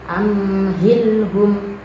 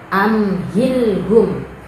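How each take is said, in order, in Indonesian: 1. Huruf m ditahan dengan dengung sengau. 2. Huruf m diucapkan dengan jelas tanpa dengung sengau. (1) "tidak boleh dibaca amhilhum" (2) "Yang benar amhilhum"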